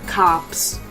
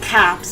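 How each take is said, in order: First: The vowel is said the plain, general way. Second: The vowel is said the Michigan way, like 'cahp'. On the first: This is how people in Michigan do not say it. "and not cops" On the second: This is how people in Michigan say it. "in Michigan we do say cops ... We say it with the C A H P"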